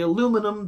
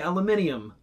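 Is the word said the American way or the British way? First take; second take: American; British. First: It is said with four syllables, ending -num. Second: It is said with five syllables, ending -nium. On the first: "we say aluminum" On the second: "they say aluminium"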